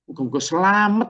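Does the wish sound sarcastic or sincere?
sarcastic. It is said in a mocking, sarcastic tone. The speaker secretly hopes the listener comes to harm.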